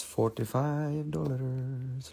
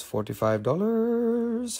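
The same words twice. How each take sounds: First: Quiet drawn-out price. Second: Slow, high and drawn out; high sing-song price call. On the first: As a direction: let the price fade away. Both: Acted. Repeating price in varied tones.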